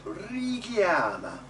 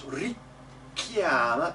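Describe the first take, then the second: First: "richiama" with one short, undoubled K; single K. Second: "richiama" with a long, held K; doubled K. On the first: Coach giving singers the correct version, single K in "richiama". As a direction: glide through the K of "richiama", lengthening the vowels instead. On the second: Coach showing singers the mistake, doubled K in "richiama". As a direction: stop on the K of "richiama" before releasing it. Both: Shown as a demonstration. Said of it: "Be careful not to double the k".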